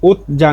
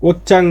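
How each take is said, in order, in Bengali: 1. মাঝের ব্যঞ্জনটি নরম j-এর মতো শোনায়। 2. মাঝের ব্যঞ্জনটি শক্ত ch-এর মতো শোনায়।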